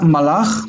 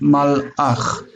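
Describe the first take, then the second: First: The word flows without a break in the middle. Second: The word has a glottal break in the middle. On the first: The speaker calls it wrong. "It's not malach" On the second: The speaker calls it right. "but malach"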